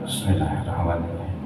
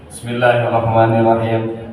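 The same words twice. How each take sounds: First: The phrase is recited softly under the breath. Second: The phrase is recited out loud. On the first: It follows the Maliki school. "Bismillah pelan-pelan" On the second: It follows the Shafi'i school. "Bismillah dibacakan"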